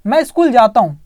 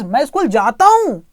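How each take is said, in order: First: Said in the usual way. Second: "मैं school जाता हूँ" with a slight push on "हूँ", as if you really do go; light emphasis. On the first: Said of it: "जैसे मैं बोलूँ". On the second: Shown as a demonstration. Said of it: "लेकिन थोड़ा सा स्ट्रेस".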